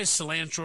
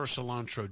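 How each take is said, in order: First: Cilantro with "an" as in "ant"; short-a pronunciation. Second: Cilantro with "ah" in the middle; broad-a pronunciation. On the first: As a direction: say cilantro as "sih-LAN-tro". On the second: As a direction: say cilantro as "sih-LAHN-tro". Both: Shown as a demonstration. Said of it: "Do you say cilantro or cilantro".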